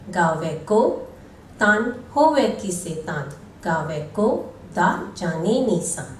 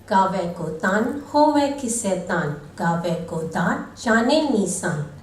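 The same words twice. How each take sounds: First: The verse is read with pauses between phrases. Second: The verse is read straight through without pausing. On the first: The speaker calls it right. "Today, we read with the right pauses" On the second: The speaker calls it wrong. "previously we used to read the Japji Sahib without a pause"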